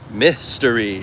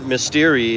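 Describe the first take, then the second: First: "mystery" drawn out slowly, "MISS-tuh-ree"; slow demo of "mystery" with the emphasis up front; stress on first syllable. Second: "mystery" stressed on the middle, "mis-TEER-ee"; wrong stress on mystery. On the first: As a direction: lean long on the MIS of "mystery". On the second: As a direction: put the emphasis on the second syllable of "mystery". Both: Shown as a demonstration. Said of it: "the way you do the emphasis".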